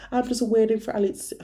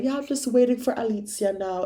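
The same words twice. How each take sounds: First: Higher, sing-song mock repeated; mocking Maddie again. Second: Higher, sing-song mock of her friend; mocking Maddie. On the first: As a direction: echo the excuse with disdain. Repeats Maddie's snap message. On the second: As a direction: parrot her friend's careless excuse. Mocking Maddie's snap message.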